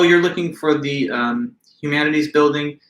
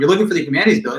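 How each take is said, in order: First: The tone is neutral and friendly. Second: The tone is annoyed and impatient. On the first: The speaker is simply giving directions. "That's one way to say it" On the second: The asker is made to feel embarrassed for asking. "in an annoyed tone"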